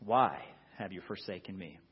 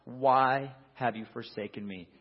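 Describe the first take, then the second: First: Lower, softer, full of doubt; the question asked again in quiet anguish; despairing. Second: A touch raised, anguished; Jesus calling out on the cross, lightly raised; mild cry. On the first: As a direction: let the doubt and fear sink in. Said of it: "There's a sense of doubt". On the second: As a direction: cry the question out. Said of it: "he cries out". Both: Acted.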